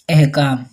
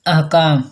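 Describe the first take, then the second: First: अहकाम said as ehkam, starting with e; wrong pronunciation. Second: अहकाम with an open a, ahkam; correct pronunciation. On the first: Teacher showing the mistaken ehkam form of अहकाम. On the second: Teacher giving the correct अहकाम with a. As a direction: say अहकाम starting with a. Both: Shown as a demonstration. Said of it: "ये गलत है".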